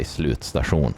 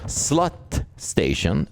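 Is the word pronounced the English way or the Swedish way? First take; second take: Swedish; English. First: The word is pronounced with Swedish sounds. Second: The word is pronounced with English sounds. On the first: The speaker calls it right. "We say slutstation" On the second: The speaker calls it wrong. "we don't pronounce it like that"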